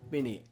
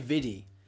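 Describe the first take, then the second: First: The middle consonant is a clear N. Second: The middle consonant sounds like a D. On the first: The speaker calls it right. "It's Vinny with an N" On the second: The speaker calls it wrong. "Some people say Viddy"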